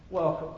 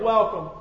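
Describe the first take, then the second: First: Softer and lower, a gentle echo of the greeting; soft repeated welcome. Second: Said in the usual way. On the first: Retold or imitated. Greeter repeating his welcome at the door, softer and lower. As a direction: let the second welcome fall away softly. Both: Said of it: "stuck his hand out immediately and said".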